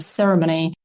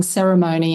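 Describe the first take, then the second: First: "ceremony" with a weak third syllable, SERR-uh-muh-nee; non-American pronunciation. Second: "ceremony" with a full MOH in the third syllable; American pronunciation. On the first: Linguist showing the preferred pronunciation, "ceremony" as SERR-uh-muh-nee. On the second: Linguist showing the pronunciation that vexes people, "ceremony" as SERR-uh-moh-nee. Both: Shown as a demonstration. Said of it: "pronunciations is another thing".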